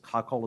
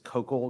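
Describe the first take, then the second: First: It is said exactly like the word cockle. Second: It is not said like the word cockle. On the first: The speaker calls it wrong. "I had thought that it was cockle" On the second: The speaker calls it right. "the proper pronunciation is"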